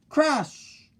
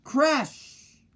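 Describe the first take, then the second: First: Crash sound. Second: High, falling crash!; crash! called high and falling; crash sound. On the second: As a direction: belt out the crash like a sound effect. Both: A narrator's reading. Sound effect word in story.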